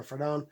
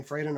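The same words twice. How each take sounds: First: "Fradon" with a short first vowel and long OH ending; second-syllable stress. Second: "Fradon" with a long AY and unstressed ending; first-syllable stress. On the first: Unsure of the artist's name, offering "Fradon" as fruh-DOHN. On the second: Unsure of the artist's name, offering "Fradon" as FRAY-den. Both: Shown as a demonstration. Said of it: "never know how to pronounce her name".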